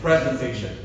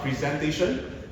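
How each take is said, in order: First: The first syllable is emphasized. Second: The first syllable is not emphasized. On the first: The speaker calls it right. "The emphasis on first" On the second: The speaker calls it wrong. "It's not presentation"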